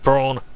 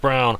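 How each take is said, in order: First: The name is said in a German accent. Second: The name is said in a plain English accent.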